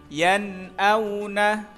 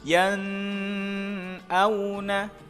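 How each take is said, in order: First: The n is pronounced clearly and distinctly. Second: The n is held with a nasal hum. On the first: The speaker calls it right. "yang betul harus dibaca jelas atau terang" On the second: The speaker calls it wrong. "Contoh yang salah ketika dibaca dengung"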